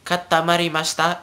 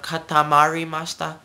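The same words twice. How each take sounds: First: "katamarimashita" with a light tapped R; Japanese R. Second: "katamarimashita" with an American R in "mari"; English R. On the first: Teacher contrasts the R sounds, Japanese tapped R. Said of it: "you notice how I said". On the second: Teacher shows the mispronounced R, English-style. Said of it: "instead of". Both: Shown as a demonstration.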